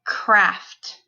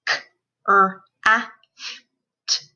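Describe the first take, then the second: First: Said in the usual way. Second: CRAFT split into five sounds; k... r... a... f... t, one by one; sounded out phonemes. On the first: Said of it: "put those sounds into a word". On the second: Shown as a demonstration. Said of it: "say the sounds in the word".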